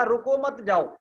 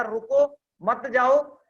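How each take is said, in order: First: रुको मत जाओ in one run, falling at the end; no pause after रुको. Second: Loud रुको, long break, then मत जाओ; slow, comma heard after रुको, before मत जाओ; pause after रुको. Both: Shown as a demonstration. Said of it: "दोनों का सेंस अलग आ रहा है".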